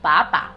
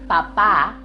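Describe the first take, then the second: First: The stress is on the first syllable. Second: The stress is on the last syllable. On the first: It means potato. "if I remove or fail to put the tilde" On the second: It means dad. "with a tilde means dad"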